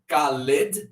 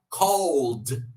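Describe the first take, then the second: First: The ending is said as an extra syllable. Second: The ending is a plain d sound. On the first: The speaker calls it wrong. "acrescento ed" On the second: The speaker calls it right. "mas na fala vai ficar cold"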